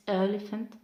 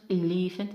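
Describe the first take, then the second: First: "elephant" as EL-e-phant; stress on first syllable. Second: Quick "elephant" as e-LEE-phant; wrong stress, second syllable. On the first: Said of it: "it's elephant". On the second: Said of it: "It's not elephant". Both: Shown as a demonstration.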